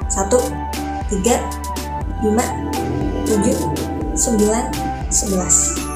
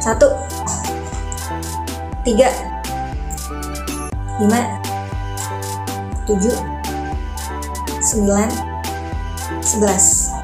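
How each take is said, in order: First: The numbers are counted at a moderate rhythm. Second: The numbers are counted at a slow rhythm. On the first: "sekarang lebih cepat dari tadi" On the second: "ronde pertama ritmenya pelan"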